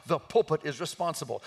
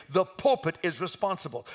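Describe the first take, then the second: No difference in how they are said.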